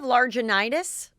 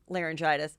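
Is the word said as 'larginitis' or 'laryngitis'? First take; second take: larginitis; laryngitis. First: It is said with a hard g as larginitis. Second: It is said with r and soft g as laryngitis. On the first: Someone else misused the word. The speaker calls it wrong. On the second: This is the intended word. The speaker calls it right. "She means laryngitis"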